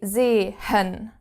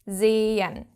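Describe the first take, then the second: First: The middle h is breathed out audibly. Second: The middle h is silent; the first e is long. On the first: The speaker calls it wrong. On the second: The speaker calls it right.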